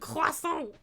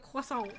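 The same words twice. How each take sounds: First: It is said with a heavy French accent. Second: It is said with a plain English accent.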